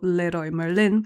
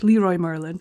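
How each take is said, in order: First: The name has a Spanish pronunciation. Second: The name has an English pronunciation. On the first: "Here it's called" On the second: "if I was going to say it in English"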